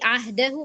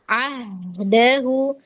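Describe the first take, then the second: First: The h sound is rushed and cut off quickly. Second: The h sound flows on before the d. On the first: The speaker calls it wrong. "kita buru-buru, terburu-buru ... tapi ahdahu bacanya begitu, maka hak mustahaknya nggak bisa kedapetin" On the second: The speaker calls it right. "sampai batas rohwahnya dapat ya"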